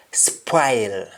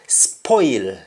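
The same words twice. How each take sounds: First: "spoil" said SPWILE; "spoil" with spw and an eye vowel; Jamaican wa form. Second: "Spoil" said SPOYL; "Spoil" with a round oy vowel; English oy form. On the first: Teacher showing the Jamaican change, "spoil" as spwile. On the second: Teacher giving the English word first, "Spoil" as spoyl. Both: Shown as a demonstration. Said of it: "O I becomes wa".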